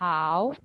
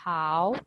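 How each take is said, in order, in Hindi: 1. पिच ऊँची और एक जैसी रहती है। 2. पिच ऊँची और एक जैसी रहती है।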